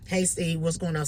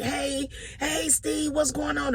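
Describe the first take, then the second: First: Lightly voiced caller without enthusiasm; subdued greeting. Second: High, slow, bright hello; upbeat greeting. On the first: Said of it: "ain't calling him all hype". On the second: Retold or imitated. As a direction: sing out the daily cheer. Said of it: "this whole upbeat".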